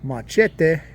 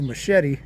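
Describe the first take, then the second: First: Machete is said in an unusual, mangled way. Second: Machete is said the usual English way. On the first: Someone who speaks no Spanish said it this way. The speaker calls it wrong. "said the word machete instead of machete" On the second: Most English speakers say it this way. The speaker calls it right. "like most of uh, the rest of the English and American speaking world say it"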